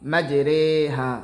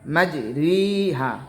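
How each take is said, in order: First: The second vowel sounds like 'ay'. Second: The second vowel sounds like 'ee'. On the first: This is the special pronunciation used at this one place. "এই ইয়ায়ে মাজহুল উচ্চারণ হবে" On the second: This is the usual pronunciation of the letter. "এখানে মূলত উচ্চারণ হবে মাজরিহা"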